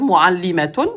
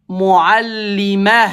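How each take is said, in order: First: The word ends with a full 'atun' sound. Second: The word ends with a soft 'ah' sound. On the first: The speaker keeps talking after the word. The speaker calls it wrong. "Je vais pas dire mu'allimatun" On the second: The speaker stops talking after the word. The speaker calls it right. "je le prononce mu'allimah"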